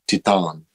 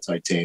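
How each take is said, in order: First: It is pronounced with a French-sounding pronunciation. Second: It is pronounced like the English word titan. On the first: The speaker calls it right. "It's probably like Titan" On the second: The speaker calls it wrong. "if it's French, it's probably not Titan"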